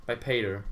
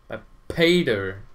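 First: Said in the usual way. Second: Paid drawn out and much louder; emphatic repeat, paid stretched loud; stress on paid. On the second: Real, not acted. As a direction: lean hard and slowly on the word paid. Same words repeated with emphasis.

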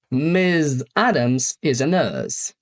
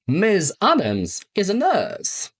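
First: "Miss Adams is a nurse" drawn out, very slow; slower model sentence. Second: Slow model sentence. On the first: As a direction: read it at half speed for learners. (bardzo powoli, dla uczniów) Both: Shown as a demonstration. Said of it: "Przykłady".

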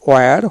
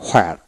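First: "ওয়্যার" with a w onset and no h; ওয়্যার, h left out; correct w-sound. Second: "হোয়ার" with an audible h at the front; হোয়ার, the h clearly sounded; h-sound variant. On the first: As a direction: say ওয়্যার starting on rounded w. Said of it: "সঠিক উচ্চারণ ওয়্যার". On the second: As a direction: say হোয়ার starting on h. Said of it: "আপনি হোয়ার উচ্চারিত করবেন". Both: Shown as a demonstration.

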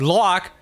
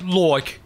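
First: "like" with an open "lahk" vowel; wrong English-accent vowel. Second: "like" rounded to "loik"; English-accent vowel. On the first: Actor showing the slip, "like" flattened to "lahk". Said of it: "but that's not how it's done". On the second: Actor showing the right vowel, "like" as "loik". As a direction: say "like" as "loik", English regional style. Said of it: "It's more like". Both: Shown as a demonstration.

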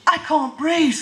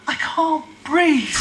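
First: Said in the usual way. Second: Mock breathless. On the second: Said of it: "and I'm gasping".

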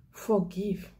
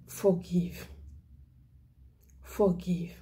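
First: Said in the usual way. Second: Breathy whispered "Forgive." with no voice; whispered plea. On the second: Real, not acted. Evangelist pleading softly with congregation, whispering. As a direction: breathe "Forgive." to them like a secret.

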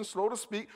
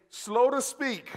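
First: Said in the usual way. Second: "Slow to speak." drawn out slow, higher and louder; congregation call. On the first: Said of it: "That is what God wants". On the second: Shown as a demonstration. Preacher leading congregation to repeat, slow call. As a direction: stretch "Slow" so they repeat it.

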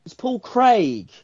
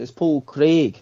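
First: Craig said slowly with a rolled r and long vowel; Paul Craig said like a Scot; mock Scottish Craig. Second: Paul Craig in a Scottish accent, "Craig" with a long ee; Scottish accent, rolled r in Craig. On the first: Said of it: "We don't say Paul Craig over here". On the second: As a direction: say the name like a Glaswegian. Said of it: "Because he's got a Scottish accent". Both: Shown as a demonstration.

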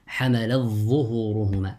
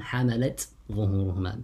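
First: حملت with its ت merged into the ظ of ظهورهما; idgham. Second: حملت with a clear final ت before ظهورهما; izhar. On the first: Teacher shows students how Warsh would say it, idgham. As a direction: run حملت into ظهورهما as one doubled ظ. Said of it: "He recited with الإدغام". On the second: Teacher shows students Qalun's reading, izhar. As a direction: release the ت of حملت, then start ظهورهما. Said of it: "بالإظهار". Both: Shown as a demonstration.

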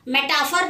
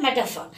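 First: मेटाफर said as meh-TAA-fur with a long a; wrong pronunciation. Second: मेटाफर said MEH-tuh-fur with short neutral vowels; correct pronunciation. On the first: Teacher showing students the wrong way, मेटाफर with long a. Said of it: "इसका pronunciation अच्छे से करिए". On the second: Teacher giving students the right way, मेटाफर as meh-tuh-fur. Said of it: "क्या है?". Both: Shown as a demonstration.

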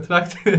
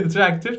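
First: Tractor with the Turkish a, trakt; Turkish reading. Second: Tractor with the English ae vowel, træktər; English pronunciation. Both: Shown as a demonstration. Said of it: "Bayağı zor gibi değil mi?".

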